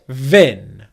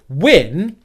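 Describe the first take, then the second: First: It starts with lip on teeth, a V sound. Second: It starts with rounded lips, a W sound. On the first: The speaker calls it wrong. "you get vin" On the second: The speaker calls it right. "instead of win"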